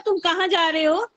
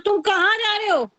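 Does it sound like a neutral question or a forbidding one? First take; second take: neutral; forbidding. First: It sounds like a plain, neutral question. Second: It sounds like forbidding someone from leaving.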